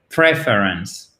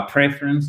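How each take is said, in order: First: "preference" slow, stressed first, ending fully pronounced; every syllable heard. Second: "preference" with the rest after the stress mumbled away; swallowed word ending. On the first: Teacher correcting francophones, whole of "preference" clearly pronounced. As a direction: stretch out "preference" so the whole word is audible. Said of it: "On entend tout de même le reste du mot". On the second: Teacher showing francophones the mistake, end of "preference" swallowed. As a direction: hit PREF and lose the end of "preference". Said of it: "C'est pas preference".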